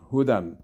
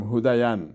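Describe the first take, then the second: First: Said in the usual way. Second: "هودین" with the silent ya wrongly sounded as "yan"; extra voiced y inside "هودین"; mispronounced hudayan. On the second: Shown as a demonstration. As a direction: say "هودین" as three syllables, hu-da-yan.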